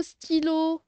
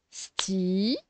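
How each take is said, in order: First: Said in the usual way. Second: "Stylo" split into sty... lo, long pause between; syllable by syllable. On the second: Shown as a demonstration. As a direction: sound out "Stylo" in two drawn-out syllables. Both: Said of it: "On sépare les syllabes".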